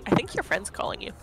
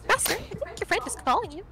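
First: It is said in the speaker's normal voice. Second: It is said in Carrie's character voice.

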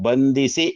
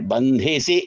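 First: The consonant after the nasal is unaspirated. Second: The consonant after the nasal is aspirated. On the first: It means to bow to someone in respect. The speaker calls it right. "ಬಂಧಿಸಿ ಎಂಬ ರೂಪ ಇದೆ" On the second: It means to tie someone up. The speaker calls it wrong. "ಅಂತ ಮಹಾಪ್ರಾಣ ಎಂದು ಮಾಡಬಾರದು"

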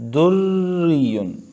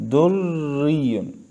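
No difference in how they are said.

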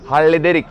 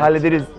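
First: The word ends with a k sound. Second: The word ends with a z sound. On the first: The speaker calls it right. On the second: The speaker calls it wrong.

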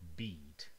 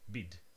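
First: The vowel is held long. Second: The vowel is clipped short. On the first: The speaker calls it right. "This one is longer" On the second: The speaker calls it wrong. "If I reversed the length, it would be really strange"

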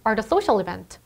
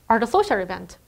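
Both takes have the same delivery.

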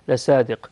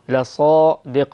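First: The s-sound is light and plain. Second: The s-sound is heavy and emphatic. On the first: The speaker calls it wrong. "وليس لصادق" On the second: The speaker calls it right. "لازم نفخم الصاد حتى لا تصبح سينا"

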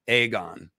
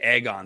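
First: The first vowel is a hard A. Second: The first vowel is not a hard A. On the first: The speaker calls it right. "Has to be a hard A" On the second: The speaker calls it wrong. "Aegon sucks"

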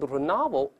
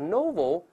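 First: It is said with an American English accent. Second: It is said with a British English accent. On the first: "美音都是novel" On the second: "英式发音都是novel"

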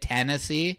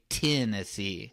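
First: The first vowel sounds like 'eh'. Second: The first vowel sounds like 'ih'. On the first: This is the speaker's own way of saying it. "for us, how we say it" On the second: This is how people with a Southern accent say it. "they say Tennessee. Like T-I-N"

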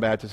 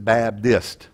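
First: It is said with a plain P sound. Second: It is said with a D sound.

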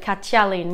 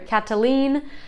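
First: The double T sounds a little like ch. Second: The double T sounds like a plain t. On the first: The speaker calls it right. "In Basque, it's like a ch sound a little bit" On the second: The speaker calls it wrong. "English speakers, we might be tempted to call this Catalin"

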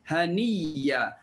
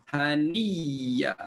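Both takes have the same delivery.

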